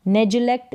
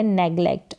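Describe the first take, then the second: First: "नेग्लेक्ट" with a j sound, nej-lect; soft G. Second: "नेग्लेक्ट" with a hard g, neg-lect. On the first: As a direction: say "नेग्लेक्ट" as if spelled nejlect. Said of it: "जी का उच्चारण यहाँ पर ग". ("नेग्लेक्ट" में ग की जगह ज) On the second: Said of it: "ग करके है". ("नेग्लेक्ट" में ग की ध्वनि) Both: Shown as a demonstration.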